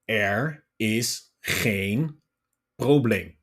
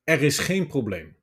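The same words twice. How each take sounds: First: It is spoken very slowly, word by word. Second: It is spoken fluently at normal speed. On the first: "first, I'm saying it very slowly" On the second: "the last sentence is more fluent, on a normal speed"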